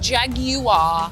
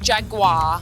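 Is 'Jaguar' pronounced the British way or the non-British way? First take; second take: British; non-British. First: The word is pronounced the British way. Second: The word is pronounced a non-British way. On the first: The speaker calls it right. "it is Jaguar, ... I'm British. I know how to say Jaguar" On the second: The speaker calls it wrong. "not Jaguar"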